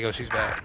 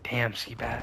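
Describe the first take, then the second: First: Said in the usual way. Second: Damn stretched and weighted; admiring emphasis on Damn; stress on Damn. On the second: Shown as a demonstration. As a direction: lean into Damn slowly. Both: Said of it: "subtle differences in the tone".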